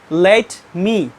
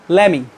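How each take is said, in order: First: The t is pronounced clearly between the words. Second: The t is dropped, sounding like lemmy. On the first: "Non-native speakers pronounce let me" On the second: "the American people pronounce it lemmy"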